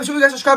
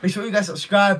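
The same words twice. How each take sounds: First: It is spoken very fast. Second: It is spoken at a normal pace. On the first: "I can speed up. Watch this" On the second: "I just said"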